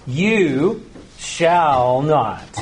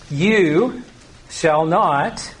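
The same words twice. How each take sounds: First: YOU SHALL NOT very slow, each word drawn out; dogmatic, heavily spaced "You shall not"; emphatic command. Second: Said in the usual way. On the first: Shown as a demonstration. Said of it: "this is an emphatic, dogmatic command".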